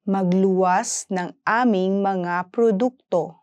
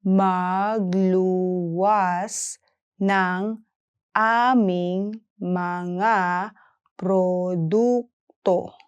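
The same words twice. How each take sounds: First: Said in the usual way. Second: "Magluwas ng aming mga produkto" slowly, pausing between words; careful slow language model; slow syllable-by-syllable. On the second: Shown as a demonstration. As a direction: stretch and separate every syllable. Teacher breaks sentence down slowly.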